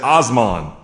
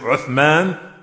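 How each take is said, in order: First: It starts with 'oh' and has an 's' sound. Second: It starts with 'oo' and has a 'th' sound. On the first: This is how American speakers say it. "Americans, they mess it up all together. They say Osman" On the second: This is the standard pronunciation. "Instead of saying Uthman"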